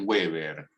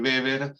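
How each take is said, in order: First: The name starts with a W sound. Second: The name starts with a B sound. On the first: The speaker calls it wrong. "es un poco impropio que le digan Weber" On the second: The speaker calls it right. "traten de decirle Weber porque es como se lo pronuncia en alemán"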